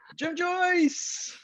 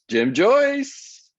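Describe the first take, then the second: First: It is said in a special put-on voice. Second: It is said in an ordinary, plain voice. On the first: The speaker calls it right. "There we go. Much better" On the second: The speaker calls it wrong. "I didn't say it in that voice"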